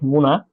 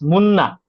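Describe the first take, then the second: First: The middle n sound is short. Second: The middle n sound is held long. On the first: The speaker calls it wrong. "my clients really do not pro- pronounce my name correctly" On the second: The speaker calls it right. "but it's Munna"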